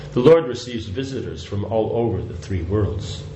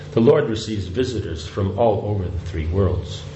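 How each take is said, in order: Both takes have the same delivery.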